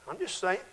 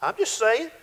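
First: Quiet aside. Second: Said in the usual way. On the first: Shown as a demonstration.

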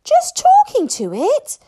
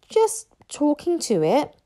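First: Very high, loud incredulous question; astonished gasp. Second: Higher, sheepish admission; embarrassed mumble. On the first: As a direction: echo it back in loud disbelief. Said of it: "gasped Fishlegs in astonishment". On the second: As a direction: admit it awkwardly, pitched up. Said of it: "mumbled Hiccup, very embarrassed". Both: A narrator's reading.

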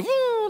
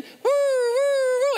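First: High siren wail, woo woo; siren imitation. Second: Higher, louder siren wail, woo woo; louder siren imitation. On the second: Shown as a demonstration. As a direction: redo the siren bigger. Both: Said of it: "do it again".

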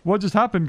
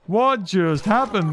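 First: Said in the usual way. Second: "What just happened" drawn out slowly; slow emphatic repeat. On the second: Real, not acted. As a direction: stretch each word of "What just happened".

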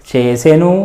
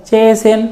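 First: చేసెను pitched low with a voiced u; full final ను. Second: చేసెన్ closed on a bare n, pitched high; చేసెన్ with no vowel after n; vowelless final n. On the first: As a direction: say the whole ను in చేసెను. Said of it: "ను అన్నట్లుగా కూడా ఉండొచ్చు". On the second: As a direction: drop the u, end చేసెన్ on n. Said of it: "పొల్లులాగానే". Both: Shown as a demonstration.

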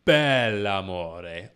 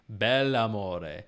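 First: "bell'amore" slow and loud with a long held b and l; doubled consonant. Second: "bell'amore" said plainly with a single l; simple short l in "bell'amore"; plain demo. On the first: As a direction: lean hard on the opening consonant of "bell'amore". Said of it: "He sings". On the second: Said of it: "I'm gonna use bel". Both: Shown as a demonstration.

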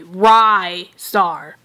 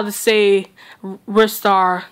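First: Rystar said with a long i, like rye bread. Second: Said in the usual way. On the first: Shown as a demonstration. Rystar, copying how Destiny Nazario says it. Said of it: "uh, this way". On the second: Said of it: "Destiny Nazario is teaching me how".

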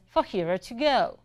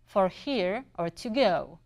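First: Lightly imitated Southern accent at normal pace; heavy Southern accent. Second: Slow, spaced-out imitation of a Southern accent; slower Southern accent. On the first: Coffee lady repeating her question, lightly imitated Southern accent. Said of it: "in the same heavy accent". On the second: Coffee lady repeating for a confused customer, slower imitated Southern accent. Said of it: "in the same heavy accent, but slower".

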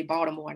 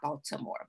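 First: "Baltimore" with the middle t softened, run together; local Baltimore pronunciation. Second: "Baltimore" with a crisp, full t in the middle; careful Baltimore pronunciation. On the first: Showing listeners how you have to say it, local "Baltimore". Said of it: "you have to say Baltimore". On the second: Showing listeners how not to say it, careful "Baltimore". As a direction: sound out "Baltimore" as spelled, Bal-tuh-more. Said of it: "not Baltimore". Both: Shown as a demonstration.

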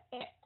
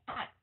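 First: "at" without the sideways stretch, short; wrong mouth shape. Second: "at" with the mouth drawn out sideways; stretched mouth. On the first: Teacher showing what not to say, unstretched "at". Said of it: "chứ không phải là at". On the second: Teacher explaining mouth shape, spread-mouth "at". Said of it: "kéo dài miệng at". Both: Shown as a demonstration.

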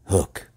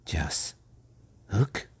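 First: Stern, grim naming of Hook. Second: Soft near-whisper lifting into a question; hushed and fearful. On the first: Peter naming his enemy to John, sternly. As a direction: say the hated name sternly. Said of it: "very stern as he said that hated word". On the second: John checking the dreaded name with Peter, hushed. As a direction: barely dare to repeat the name. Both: A narrator's reading.

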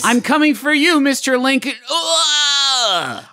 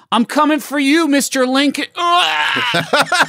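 First: High crying shout, dying; death cry. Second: High screamed dying threat; death cry. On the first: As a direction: wail it out as you die. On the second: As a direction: scream your last words. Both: Shown as a demonstration.

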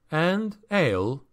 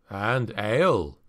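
First: Higher-pitched, easy assent; mild agreement. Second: Slow, lightly voiced gruff dwarf; a mild, unhurried grunt; dwarf's grunt. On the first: Traveler agreeing to the dwarf's demand, mild higher echo. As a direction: echo it higher, lightly conceding. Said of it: "Felix agreed". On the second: Dwarf adding his one demand to Felix's, slow grunt. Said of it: "the dwarf grunted". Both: A narrator's reading.

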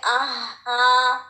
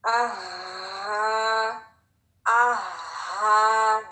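First: आहा with the ह lost; wrong weak ha. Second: आहा long, both sounds strong and breathy; both letters strong. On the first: Teacher shows the wrong way: the ह fades. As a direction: let the ह fade in आहा. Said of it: "ये नहीं होना चाहिए". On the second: Teacher shows the right way: long, strong breathy आहा. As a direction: stretch आहा, keep the ह strong. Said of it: "दोनों लेटर स्ट्रॉन्ग होंगे". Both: Shown as a demonstration.

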